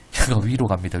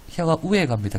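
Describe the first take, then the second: First: Said in the usual way. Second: Gyeongsang "우에" for "위에", pitched higher; higher-pitched Gyeongsang dialect mnemonic. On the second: Shown as a demonstration. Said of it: "경상도 사투리로".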